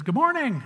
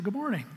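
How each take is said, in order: First: High, swooping hello; hearty greeting. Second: Softer, lightly lifted greeting; mild polite reply. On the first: Gentleman greets a man in the coat room, heartily. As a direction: greet a stranger heartily, pitch raised. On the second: Man in the coat room answers a stranger, mildly polite. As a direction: return the greeting more modestly. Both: Retold or imitated.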